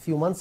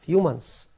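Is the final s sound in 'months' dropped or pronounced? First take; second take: dropped; pronounced. First: The final s of months is dropped. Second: The final s of months is pronounced. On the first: The speaker calls it wrong. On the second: The speaker calls it right.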